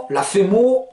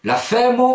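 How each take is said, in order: First: Femo stressed on final MO; seconde hypothèse. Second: Femme said FÈ-mo, stressed on FÈ; première hypothèse. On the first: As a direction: push the weight onto MO in femo. (« femo » accentué sur MO) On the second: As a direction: stress FÈ, light o after it in femme. (« femme » dit FÈmo, accent sur FÈ) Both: Shown as a demonstration. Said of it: "Alors vous hésitez".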